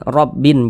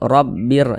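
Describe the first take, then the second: First: The n sound is pronounced clearly before the r. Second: The n sound merges fully into the r. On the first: The speaker calls it wrong. "jangan dibaca rabbin rabbin" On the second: The speaker calls it right. "tanwinnya dimasukkan ke huruf ra"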